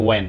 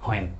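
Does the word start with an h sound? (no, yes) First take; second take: no; yes. First: The word starts with a plain w sound. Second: The word starts with an h sound. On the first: The speaker calls it right. "উচ্চারণ কিন্তু ওয়েন" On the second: The speaker calls it wrong. "Common mistake হলো হয়েন উচ্চারণ করি আমরা বাংলাদেশিরা"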